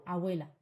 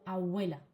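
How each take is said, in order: No difference in how they are said.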